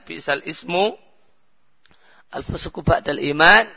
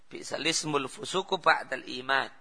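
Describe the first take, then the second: First: Each word is said separately, with full article. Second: The words run together, dropping the article's vowel. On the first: "Contoh ayat Al-Quran" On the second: "Namun cara bacanya, kalau pakai qira'ah hafaz"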